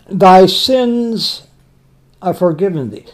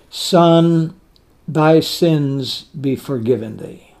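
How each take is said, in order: First: Said in the usual way. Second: Softer, slow and loving; tender. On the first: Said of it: "it's full of compassion". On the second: Shown as a demonstration. Jesus speaking to the paralytic, soft and slow with love. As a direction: let each word carry compassion, gently. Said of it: "full of love".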